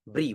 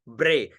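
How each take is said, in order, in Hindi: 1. अक्षर 'ee' स्वर पर समाप्त होता है। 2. अक्षर 'ay' स्वर पर समाप्त होता है। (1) "ब्री वो अशुद्ध है" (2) "ऐसे रे उच्चारण होना चाहिए"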